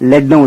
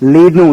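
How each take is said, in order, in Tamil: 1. உயிரொலி குறுகியது, 'bed' என்ற சொல்லில் உள்ள 'e' போல. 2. உயிரொலி நீளமானது, 'ee' போல. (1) "லெட்னா இஎம் அர்த்தம்" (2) "லீட்னா வழி நடத்துன்னு அர்த்தம்"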